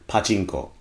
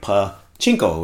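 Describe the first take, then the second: First: The pitch makes it sound like one single word. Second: The pitch makes it sound like pa plus chinko. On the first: It names the pinball-like game. The speaker calls it right. "the pronunciation is probably more on the lines of pachinko" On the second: It sounds like a rude slang word with pa in front. The speaker calls it wrong. "depending on your intonation, it ends up sounding like pachinko"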